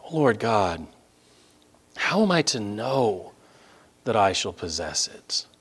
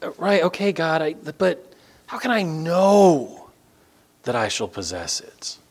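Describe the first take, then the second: First: "know" held long in a reverent plea; stress on "know". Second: Higher, halting plea, "know" stretched out long; Abram stressing "know". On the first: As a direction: lean long on "know", pause, then drop softly. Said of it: "I'm emphasizing that word "know". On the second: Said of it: "the emphasis in verse eight is Abram saying". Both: Acted.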